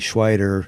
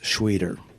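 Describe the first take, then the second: First: The vowel sounds like 'eye'. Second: The vowel sounds like 'ee'. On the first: This is how the name would be if spelled differently. The speaker calls it wrong. "if it was E I T E R, it would be" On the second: This is how the actual name is said. The speaker calls it right. "but it's"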